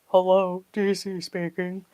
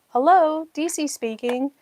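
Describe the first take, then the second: First: It is said in a put-on deep voice. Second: It is said in her normal voice.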